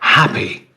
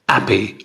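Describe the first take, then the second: First: The word starts with a clear h sound. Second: The word starts without any h sound. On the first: "For example" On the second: "French speakers speaking English will say"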